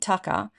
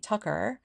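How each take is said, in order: First: It has an Australian accent without a final R. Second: It has an American accent with a final R.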